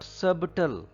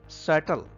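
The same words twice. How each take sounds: First: The b sound is pronounced in the middle. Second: The b sound is silent in the middle. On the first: The speaker calls it wrong. "It is not subtle" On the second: The speaker calls it right. "B is silent here"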